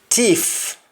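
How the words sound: The word begins with a t sound. "In Jamaican, the S T in most cases changes to T"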